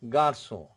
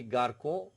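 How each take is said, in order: First: "garçon" with the C said as S, "gar-so"; French "garçon", soft S for the C; cedilla soft C. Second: "garçon" wrongly with a hard K, "gar-ko"; mispronounced "garçon", K in place of S; missed cedilla. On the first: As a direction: say "garçon" with a soft s sound in the middle. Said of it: "if you miss this accent". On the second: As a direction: say "garçon" as if spelt with a plain C, "garko". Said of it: "if you miss this accent, it will be". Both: Shown as a demonstration.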